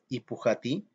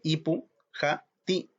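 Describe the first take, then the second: First: It is said smoothly as one word. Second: It is broken into separate parts with pauses. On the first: The speaker calls it right. "se pronuncia como una sola palabra" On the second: The speaker calls it wrong. "acá no dice ipu, ja, ti"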